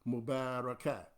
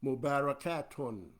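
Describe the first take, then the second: First: The word ends without the final -un syllable. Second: The word ends with a final -un syllable. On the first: "we cut off the un and just say Mubarakat" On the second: "we should say Mubarakatun"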